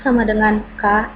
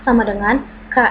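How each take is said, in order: Both takes have the same delivery.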